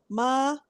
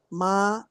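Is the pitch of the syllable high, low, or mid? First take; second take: mid; low. First: The syllable is said on a mid pitch. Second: The syllable is said on a low pitch. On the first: "tono medio" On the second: "tono más bajo"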